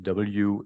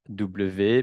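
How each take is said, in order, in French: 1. La lettre se prononce comme en anglais. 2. La lettre se prononce comme en français. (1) "en anglais, ou c'est W" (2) "On ne dit pas W"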